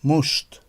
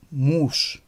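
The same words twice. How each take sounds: First: مشت with a short o vowel. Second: موش with a long, held oo; long vowel in موش. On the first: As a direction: keep the vowel of مشت brief. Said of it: "تلفظش کوتاه است". (مشت را با «او» کوتاه بگو) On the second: (موش را با «او» کشیده بگو) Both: Shown as a demonstration.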